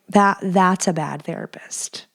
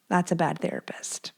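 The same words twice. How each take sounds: First: Said in the usual way. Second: Much softer whispered echo of the verdict; whispered repeat. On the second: Real, not acted. Judging her old therapist to viewers, soft whisper. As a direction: whisper it again to yourself.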